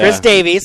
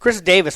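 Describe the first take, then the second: First: The surname ends with a 'veez' sound. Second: The surname ends with a 'vis' sound. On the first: The speaker calls it right. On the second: The speaker calls it wrong.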